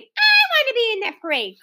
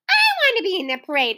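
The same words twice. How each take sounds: First: Clamoring. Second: Put-on high, fast eager children; clamoring. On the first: Children clamoring again to join the parade. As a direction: insist even harder. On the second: Children clamoring to join the parade. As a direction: pile in eagerly. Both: A narrator's reading. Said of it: "cried the others".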